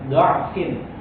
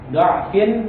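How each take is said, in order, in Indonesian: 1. Suku kata pertama memiliki vokal 'a'. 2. Suku kata pertama memiliki vokal 'a'.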